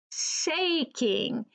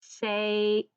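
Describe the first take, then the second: First: "Shaking" with a clear long ay. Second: "Shake" with a drawn ay; long A in shake. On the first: Teacher modelling "Shaking" after shake. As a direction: keep the ay in "Shaking". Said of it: "In the word shaking". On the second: Teacher modelling "Shake" for pupils. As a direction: stretch the ay in "Shake". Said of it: "making the A say A". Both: Shown as a demonstration.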